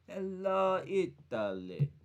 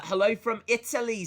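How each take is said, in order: First: A lightly voiced Italian hello, Italy trailing off slow; hint of an Italian accent on the greeting; Italian impression. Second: Said in the usual way. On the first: Shown as a demonstration. Greeting Italian viewers in a mock Italian accent. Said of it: "That's my impression".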